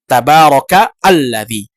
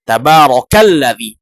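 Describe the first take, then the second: First: Alladzi starts fresh with its own glottal stop. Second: The words run together with no glottal stop. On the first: The speaker calls it wrong. "Tidak kita mengatakan" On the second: The speaker calls it right.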